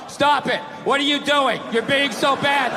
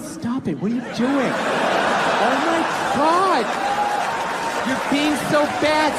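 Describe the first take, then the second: First: It is read out in a flat, dull tone. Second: It is said in a playful, flirty tone.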